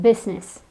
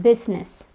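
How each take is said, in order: No difference in how they are said.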